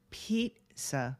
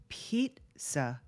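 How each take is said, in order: No difference in how they are said.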